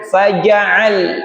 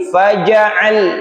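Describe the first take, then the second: The two takes are said the same way.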